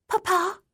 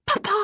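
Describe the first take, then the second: First: Put-on very high little girl calling out; high-pitched daughter's call; child's voice. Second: Put-on very high child's cry filled with excitement; delighted high-pitched little girl; glad, excited. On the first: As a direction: call for Papa from the next room. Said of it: "a voice said from inside the room". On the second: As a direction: call out gladly to a father just arrived. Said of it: "more gladly, filled with excitement". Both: A narrator's reading.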